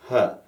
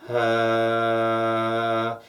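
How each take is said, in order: First: An easy little schwa, let out briefly; short "huh" placed forward in the mouth; simple short "huh". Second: Long, steady neutral vowel on one pitch; breath into a level, drawn-out "huuh"; sustained "huh". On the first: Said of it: "simple sound like that". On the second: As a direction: hold the schwa out evenly, voice forward. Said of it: "as you sustain that voice". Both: Shown as a demonstration.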